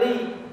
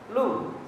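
First: The l is followed by an i vowel. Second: The l is followed by a u vowel. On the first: The speaker calls it right. "kalau baca itu bacanya li" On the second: The speaker calls it wrong. "jangan antum baca lu gitu"

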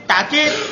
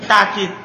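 First: The first syllable ends in a glottal stop. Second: The first syllable has a long 'a' vowel. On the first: "Asania yang kedua, takkid. Bilhamzah, pakai hamzah" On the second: "Wasalisa yang ketiga, takkid bil alif, pakai alif"

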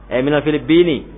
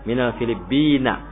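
First: The last word ends with an 'i' vowel. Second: The last word ends with an 'a' vowel. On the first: The speaker calls it right. "karena ada min, maka itu apa mengkasrohkan kata berikutnya" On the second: The speaker calls it wrong. "bukan Filibin"

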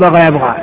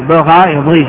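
First: The second verb ends in an 'a' vowel. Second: The second verb ends in an 'ee' vowel. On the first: This is the everyday spoken form. The speaker calls it wrong. "انتم تتكلمون بغى يبغى ... في لغة جمهور العرب هذا اللحن" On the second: This is the classical standard form. The speaker calls it right. "هذا هو لغة الفصحى"

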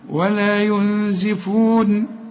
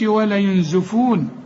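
First: The vowel after z is an i sound. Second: The vowel after z is an u sound. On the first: The speaker calls it right. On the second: The speaker calls it wrong.

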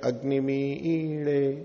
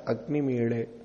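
First: The vowel after m is doubled as a long svarita. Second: The vowel after m is said once. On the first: "तो मी भी बोला और ई भी बोला" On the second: "एक तो है अग्निमीड़े"

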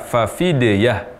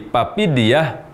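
First: The word is said with f sounds. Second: The word is said with p sounds. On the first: The speaker calls it right. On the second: The speaker calls it wrong.

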